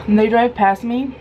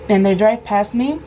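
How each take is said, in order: Both takes have the same delivery.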